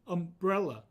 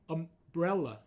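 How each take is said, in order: The two takes are said the same way.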